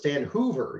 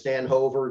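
First: The surname's first vowel sounds like 'oo'. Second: The surname's first vowel sounds like 'oh'. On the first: The speaker calls it right. "he corrected me and said, no, it's Stan Hoover, even though it's just the 1-0" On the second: The speaker calls it wrong. "I always thought it was Stan Hover, just like everybody else did"

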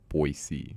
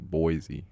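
First: It is said the way locals say it. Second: It is said the way outsiders say it. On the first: The speaker is from the city. The speaker calls it right. "if you're from there, it's Boise" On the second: The speaker is not from the city. The speaker calls it wrong. "if you're not from there, you'll say Boise"

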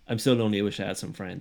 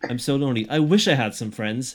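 First: It is said flatly, like a young boy. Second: It is said with dramatic, expressive inflection.

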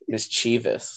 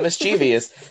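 First: No extra sound comes before the ending. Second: An extra 'ee' sound comes before the ending. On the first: The speaker calls it right. "There's no I behind that OUS" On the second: The speaker calls it wrong. "Not mischievous"

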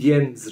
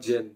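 First: The name is given its German pronunciation. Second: The name is given a non-German pronunciation. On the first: The speaker calls it right. "the German name would be Jens" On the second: The speaker calls it wrong. "Not Jens"

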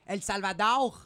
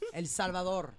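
First: It is said with a French accent. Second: It is said with a Spanish accent. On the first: The speaker calls it wrong. "when I hear French people or other people saying like El Salvador" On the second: The speaker calls it right.

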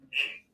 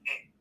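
First: The greeting sounds curt and cold. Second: The greeting sounds friendly and warm.

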